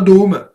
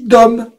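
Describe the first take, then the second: First: The o is said closed, like ô. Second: The o is said open, without circumflex. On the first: The speaker calls it wrong. "Ça se dit pas Dôme" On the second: The speaker calls it right. "Il n'y a pas d'accent circonflexe, ça se dit Dom"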